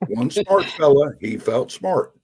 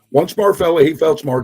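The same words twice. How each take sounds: First: It is spoken at a slow pace. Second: It is spoken at a fast pace. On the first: "I'll say it one time slowly" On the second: "and then I'll say it fast"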